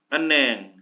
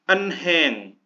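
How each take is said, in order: First: No 'h' sound is heard in the middle. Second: A clear 'h' sound is heard in the middle. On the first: The speaker calls it right. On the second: The speaker calls it wrong.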